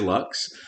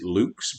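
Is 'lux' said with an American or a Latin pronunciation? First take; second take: American; Latin. First: The word is said with an American pronunciation. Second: The word is said with a Latin pronunciation. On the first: This is how Americans say it. "but we're Americans, so we say lux" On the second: This is the original Latin way. "I suppose we should pronounce it lux"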